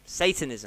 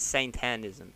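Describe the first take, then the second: First: Said in the usual way. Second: "Satanism" said as saint-TAN-ism; mimicked mispronunciation. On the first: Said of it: "Say it right". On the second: Host quoting cohost's slip, "Satanism" mispronounced as saint-tan-ism. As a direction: put an n and a stressed "tan" into "Satanism". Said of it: "I thought you said".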